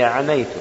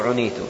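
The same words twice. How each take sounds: First: The first vowel is an open 'a' sound. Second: The first vowel is a rounded 'u' sound. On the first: "فتح العين" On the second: "أو بضمها"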